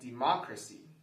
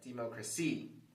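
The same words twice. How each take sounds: First: The stress is on the second syllable. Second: The stress is on the fourth syllable. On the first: The speaker calls it right. "If we stress the second syllable" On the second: The speaker calls it wrong. "If we stress the fourth syllable"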